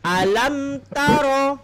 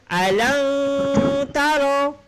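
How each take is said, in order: First: The m sound is clearly closed with the lips. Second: The m sound is blurred, not clearly pronounced. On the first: The speaker calls it right. "Yang jelas kita baca kena alam taro" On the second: The speaker calls it wrong. "Ataupun alam taro juga tak boleh"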